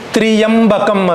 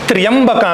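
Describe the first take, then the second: First: The opening cluster is split into two syllables. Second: The opening consonant cluster is said as one syllable. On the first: It follows Vedic recitation rules. "ವೈದಿಕವಾಗಿ ತ್ರಿಯಂಬಕಂ ಅಂತ ಹೇಳಬೇಕು" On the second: It follows the word's etymology. "ವ್ಯುತ್ಪತ್ತಿಯಿಂದ ನೋಡಿದ್ರೆ ತ್ರ್ಯಂಬಕ ಅಂತ ಹೇಳಬೇಕು"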